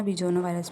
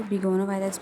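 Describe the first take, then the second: First: बिजोनो said with a j sound, bi-jo-no; soft j pronunciation. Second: बिगोनो said with a hard g, bi-go-no; hard g pronunciation. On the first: Teacher gives students the other common way, बिजोनो with j. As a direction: swap the g for a j: बिजोनो. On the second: Teacher offers students one way to say it, बिगोनो with hard g. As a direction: say बिगोनो with a clear hard g sound. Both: Shown as a demonstration. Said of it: "बहुत से लोग ना बिजोनो virus भी बोलते हैं".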